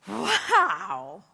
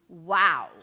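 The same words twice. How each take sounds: First: It sounds delighted, reacting to something good. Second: It sounds dismayed, reacting to something bad. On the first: Something wonderful just happened. "Or outrageously good and you go" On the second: Something terrible just happened. "When things happen that are like outrageously bad and you go"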